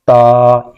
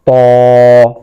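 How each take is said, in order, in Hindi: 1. यह अक्षर पतला बोला जाता है, हल्के स्वर के साथ। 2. यह अक्षर मोटा बोला जाता है, गहरे स्वर के साथ। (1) "ये गलती है" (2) "तीनों मोटे पढ़ेंगे"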